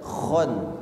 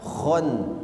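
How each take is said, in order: First: The first sound is a thick kh. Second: The same.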